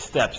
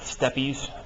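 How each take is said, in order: First: The word is said as one syllable. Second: The word is said as two syllables. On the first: The speaker calls it right. "It's steps" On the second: The speaker calls it wrong. "not steppies, which I know may be how you're inclined to pronounce it"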